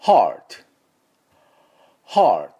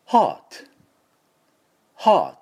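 First: American "heart" with R, louder model take; American pronunciation. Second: British "heart" with no R, higher and louder; British pronunciation. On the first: Teacher leading repeat-after-me drill, American pronunciation. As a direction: curl the R clearly, American style, for repeating. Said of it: "じゃあ、ついでにイギリスの音でも". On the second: Teacher leading repeat-after-me drill, British pronunciation. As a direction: drop the R, just "haa" and t, British style. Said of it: "イギリスの音でもいきますか". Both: Shown as a demonstration.

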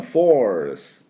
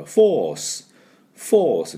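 First: Teacher demonstrating force in an American accent. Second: Teacher demonstrating force in a British accent. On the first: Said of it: "アメリカ人は". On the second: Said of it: "イギリス人だとこの中のRの音を入れませんから". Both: Shown as a demonstration.

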